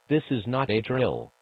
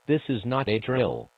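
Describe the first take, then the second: No difference in how they are said.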